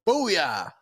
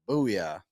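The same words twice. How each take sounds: First: The word is said loudly with strong emphasis. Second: The word is said flatly with little energy. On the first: The speaker calls it right. "put more emphasis behind it" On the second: The speaker calls it wrong. "He didn't sit there and go booyah"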